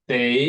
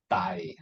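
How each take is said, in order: First: "day" with a clear "ay" vowel; British A sound. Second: "day" turned into "die"; Australian A sound. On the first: Teacher contrasting with Australian, "day" with British "ay". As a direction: say "day" to rhyme with "say". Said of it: "in British English". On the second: Teacher showing Australian accent, "day" said as "die". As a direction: widen "day" until it rhymes with "eye". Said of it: "the Australian people, they pronounce the A sound differently". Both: Shown as a demonstration.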